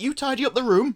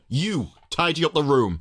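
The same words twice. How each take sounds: First: It is said in a gentle, motherly tone. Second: It is said in a bossy, commanding tone.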